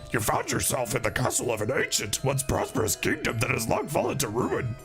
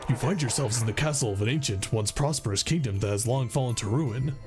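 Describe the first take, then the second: First: It is said in a Yoda voice. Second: It is said in a Freddy Fazbear voice.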